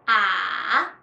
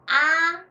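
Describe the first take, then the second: First: The pitch dips low, then rises. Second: The pitch stays high and level. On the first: "third tone is start slow, deep to the bottom, then rise again" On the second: "first tone is high level tone"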